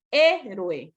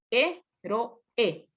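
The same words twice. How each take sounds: First: Said in the usual way. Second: "héroe" split slowly into hé-ro-e; syllable by syllable. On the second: Shown as a demonstration. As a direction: pause between the three syllables of "héroe". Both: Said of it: "Es una esdrújula".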